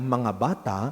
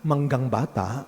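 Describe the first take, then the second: First: The first word is said plainly as 'mga'. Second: The first word is said as 'manggang'. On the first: The speaker calls it right. "imbes na sabihin niyang mga bata" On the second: The speaker calls it wrong. "ang tawag niya manggang bata"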